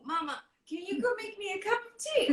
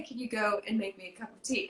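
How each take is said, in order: First: High, stammering embarrassed father; awkward dad. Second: Said in the usual way. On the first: Retold or imitated. Dad dodging a love scene by asking for tea, awkward stammer. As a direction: hem and haw to escape the scene. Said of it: "he will say". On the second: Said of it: "he would always say".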